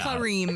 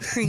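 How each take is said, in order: First: The name is said with two syllables. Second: The name is said with one syllable. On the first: The speaker calls it right. "Kareem, not cream" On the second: The speaker calls it wrong. "not cream"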